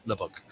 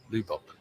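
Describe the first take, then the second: First: Lubbock said as "LUH-buck"; second pronunciation attempt. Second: Lubbock said as "LOO-bock"; unsure pronunciation. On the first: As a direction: say Lubbock with a short "uh" in the first syllable. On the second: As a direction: try Lubbock with an "oo" in the first syllable. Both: Shown as a demonstration. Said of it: "I don't know how to pronounce it".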